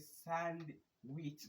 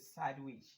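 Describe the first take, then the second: First: The d sound is pronounced in the word. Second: The d sound is left out of the word. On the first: The speaker calls it wrong. "ba aka ce sandwich ba" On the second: The speaker calls it right. "sai dai ka ce sandwich"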